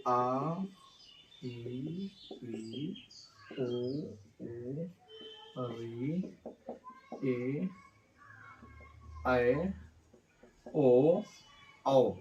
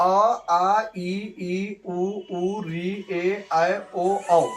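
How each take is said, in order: First: Each vowel said slowly and softly, one by one; slow soft vowel recital. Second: Said in the usual way. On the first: Shown as a demonstration. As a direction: ease out each vowel quietly with long pauses. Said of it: "तो sir वो स्वर्ण वर्ण है क्या?". (स्वरों का धीमा, नरम उच्चारण) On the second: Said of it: "यहाँ पे देखिए".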